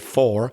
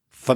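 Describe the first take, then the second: First: The word has a full, clear vowel. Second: The word is reduced to a short weak sound. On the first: "I don't really say for" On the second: "the word for sounds like f"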